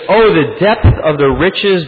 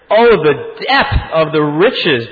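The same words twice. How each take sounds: First: It is read in a calm, even way. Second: It is read with strong, exclamatory energy. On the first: The speaker calls it wrong. "I don't even think I gave that verse enough justice" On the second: The speaker calls it right. "I'm going to say it again with the gusto"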